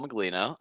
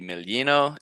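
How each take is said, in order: First: The surname is said with an English pronunciation. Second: The surname is said with an Italian pronunciation.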